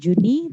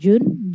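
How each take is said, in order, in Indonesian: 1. Dibaca dengan cara Indonesia, berakhir dengan 'ee'. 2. Dibaca dengan cara Inggris, satu suku kata. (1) "bukan Juni" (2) "tapi June"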